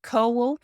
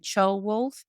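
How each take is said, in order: First: The name begins with a plain 'coe' sound. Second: The name is said in its fuller 'ceol-wulf' form. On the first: The speaker calls it wrong. "which is not the right way to say it" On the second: The speaker calls it right. "I think you should call him Ceolwulf"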